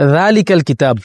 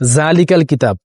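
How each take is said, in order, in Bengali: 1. প্রথম শব্দটি নরম 'dh' ধ্বনি দিয়ে শুরু হয়। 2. প্রথম শব্দটি 'j' ধ্বনি দিয়ে শুরু হয়।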